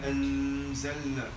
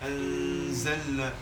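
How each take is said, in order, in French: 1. Le n est tenu avec un long bourdonnement nasal. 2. Le n est tenu avec un long bourdonnement nasal.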